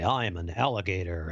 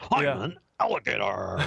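First: The voice is flat with little energy. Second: The voice is lively and full of energy. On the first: The speaker calls it wrong. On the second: The speaker calls it right.

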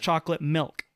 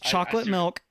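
First: The stress falls on 'milk'. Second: The stress falls on 'chocolate'. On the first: "or the milk part" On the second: "putting the emphasis on either the chocolate part"

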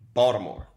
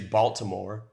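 First: The middle consonant sounds like a d, local-style. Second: The middle consonant is a clear t sound.

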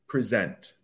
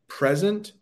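First: The stress is on the second syllable. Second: The stress is on the first syllable. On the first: It is the verb, meaning to give formally. "he thought it was time to present" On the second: It is the noun, meaning now or a gift. "since there is no time like the present"

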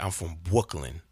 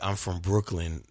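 First: It is said in an affected, baby-talk-like accent. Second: It is said in a plain, ordinary voice. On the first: "they're like" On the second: "Instead of saying like"

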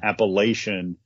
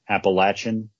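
First: It is said differently from the school's own way. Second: It is said the way the school says it. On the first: This version angers the school's fans. The speaker calls it wrong. "if you call them Appalachian, that really gets their little mountaineer blood boiling" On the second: This is how the school's own people say the name. The speaker calls it right. "Their pronunciation is Appalachian"

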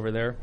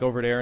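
First: It is said in a standard accent. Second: It is said in a Brooklyn accent.

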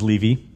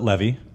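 First: The first vowel is a long 'ee' sound. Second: The first vowel is a short 'eh' sound. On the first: This is how the owner says the name. The speaker calls it right. "My last name is Levy" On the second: This is how most other people say the name. The speaker calls it wrong. "Everybody pronounces it Levy"

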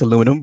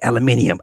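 First: The word ends with the shorter '-inum' ending. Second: The word ends with the extra '-inium' syllable. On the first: It is the form the speaker knows as usual. "I know it's aluminum" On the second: It copies the way a TV presenter says it. "he says aluminium. I'm like, yeah, aluminium"

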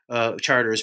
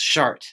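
First: It is said with an English, local pronunciation. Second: It is said with a French pronunciation. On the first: This is how the street is called locally. "being the local pronunciation" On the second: This is how the name is said in France. "for those of you touring France right now, you would pronounce"

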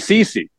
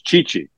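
First: The name is said with an English pronunciation. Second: The name is said with an Italian pronunciation. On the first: The speaker calls it wrong. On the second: The speaker calls it right.

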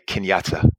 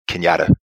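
First: The T sound is clearly pronounced. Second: The T sound is dropped. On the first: "people would not say Kenyatta" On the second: "They would say Kenyatta"

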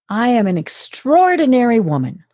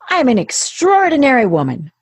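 First: It is said with a calmer, relaxed voice. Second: It is said with a less calm, tenser voice.

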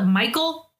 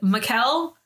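First: The name sounds like the English name Michael. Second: The name does not sound like English Michael. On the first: This is how English speakers tend to say it. The speaker calls it wrong. "some random people, mostly people that are of English speaking like origin, call it Michael" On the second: This is the form the speaker chooses to use. The speaker calls it right. "So we're going to go with Michel"

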